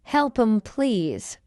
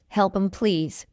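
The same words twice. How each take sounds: First: Measured "Help 'em, please"; slow model. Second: Quick, linked "Help 'em, please"; fast English. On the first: Teacher models the phrase for learners first, slowly. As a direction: take time over "Help 'em, please". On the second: Teacher trains learners' ears, fast. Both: Shown as a demonstration. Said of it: "fast English is not difficult".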